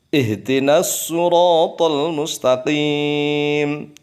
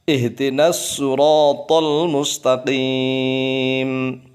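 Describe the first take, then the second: Both takes have the same delivery.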